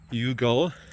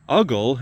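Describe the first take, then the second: First: The word begins with a 'you' sound. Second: The word begins with a short 'uh' sound. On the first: "I like Yugal because it reminds us of unconditional. You" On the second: "or you could pronounce it Uggle, and that's a little more fun to say"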